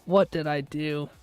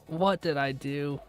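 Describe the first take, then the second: No difference in how they are said.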